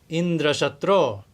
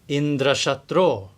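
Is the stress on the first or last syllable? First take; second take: last; last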